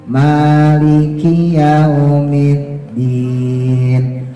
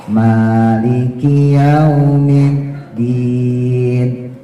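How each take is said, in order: The two takes are said the same way.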